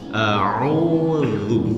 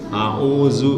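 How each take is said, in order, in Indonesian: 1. Konsonan tengahnya dibuat dengan lidah dijulurkan. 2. Konsonan tengahnya 'z' biasa, yang berdengung. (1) "gitu ya"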